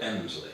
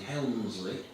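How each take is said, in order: First: The name begins with a vowel and drops the L. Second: The name begins with an H and keeps the L. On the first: This is how the locals say it. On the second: This follows the written spelling.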